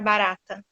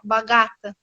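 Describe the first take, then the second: First: The middle consonant is a clear R. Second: The middle consonant is a distorted sound. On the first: The speaker calls it right. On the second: The speaker calls it wrong.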